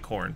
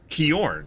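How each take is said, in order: First: The name starts with a plain k sound. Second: The name starts with a harsh kh sound. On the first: The speaker calls it right. "it's actually Korn" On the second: The speaker calls it wrong. "I just pronounced that as Kjorn"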